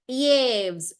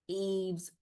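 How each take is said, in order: First: The name begins with a y glide sound. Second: The name begins with a plain ee vowel. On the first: The speaker calls it wrong. "usually I would go with my Sanskrit thing. I would say Yves" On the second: The speaker calls it right. "I had to look up the exact pronunciation of that sound"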